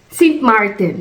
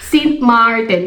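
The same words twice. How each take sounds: First: The vowel in Martin is short. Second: The vowel in Martin is long. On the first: The speaker calls it wrong. "Nagkamali pa ata ako ng bigkas" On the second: The speaker calls it right. "Dalawang A kasi Martin"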